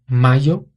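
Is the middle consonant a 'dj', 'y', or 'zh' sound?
y. The middle consonant is a plain y sound. "Na Espanha seria mayo"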